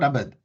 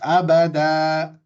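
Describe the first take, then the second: First: The word ends on a consonant, no final vowel. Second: The word ends with a long final a vowel. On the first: The speaker calls it wrong. "it's not abad" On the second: The speaker calls it right. "It's abada"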